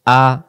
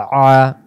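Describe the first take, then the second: First: Clean, open "আ"; "আ" with a glottal start, no squeeze; hamza a. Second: Louder "আ" pressed in the throat; squeezed ain a. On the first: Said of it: "Hamza জবর আ". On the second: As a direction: tighten inside the throat on "আ". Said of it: "গলার ভিতরে চাপাচাপি হবে". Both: Shown as a demonstration.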